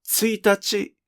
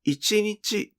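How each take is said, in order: First: 一日 read as "tsuitachi", tsu-ee-tah-chee, pitch falling after tsu. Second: 一日 read as "ichinichi", itchy-knee-chee, pitch falling after i. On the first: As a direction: say 一日 as "tsuitachi", the first day of a month. (一日を「ついたち」と読む) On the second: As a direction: say 一日 as "ichinichi", meaning one day. (一日を「いちにち」と読む) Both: Shown as a demonstration. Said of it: "一日と読むときの意味は".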